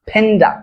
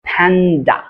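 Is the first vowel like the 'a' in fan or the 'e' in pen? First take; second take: e in pen; a in fan. First: The first vowel sounds like 'e' in pen. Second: The first vowel sounds like 'a' in fan. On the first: The speaker calls it wrong. "ফেন্ডা নাকি ফ্যান্ডা, উচ্চারণ কি হবে?" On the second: The speaker calls it right. "উচ্চারণ কি হবে? ফ্যান্ডা।"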